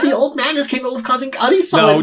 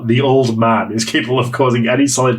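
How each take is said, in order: First: It is read in a cute, adorable voice. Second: It is read in a plain, ordinary voice. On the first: The speaker calls it right. "Let me read that again" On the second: The speaker calls it wrong. "I didn't realise it was meant to be adorable"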